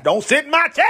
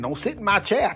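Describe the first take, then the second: First: Louder, rising church lady repeat; a hint of a church lady pushing harder; church lady insisting. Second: A lightly voiced church lady, low; a hint of a stern church lady. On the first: Church lady repeating her warning, louder and rising. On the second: Church lady warning off newcomers, lightly voiced.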